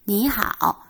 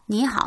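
First: The greeting is said slowly and drawn out. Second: The greeting is said quickly and clipped. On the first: Greeting just one person. "이렇게 천천히 할 수 있지만" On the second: Greeting many people in turn. "이렇게 빨리 빨리 인사를 해줘야 되는데"

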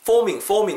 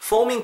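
First: Said smoothly, with a soft lip-friction f. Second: Said stiffly, each sound pronounced flatly. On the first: The speaker calls it right. "foaming이거든요" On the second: The speaker calls it wrong. "이렇게 하지 마시고"

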